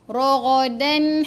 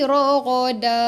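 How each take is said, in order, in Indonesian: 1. Berakhir dengan bunyi n yang menyambung ke kata berikutnya. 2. Berakhir pada vokal panjang, tanpa n. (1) "kalau lah contoh nanti sambung" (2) "kalau kita berhenti"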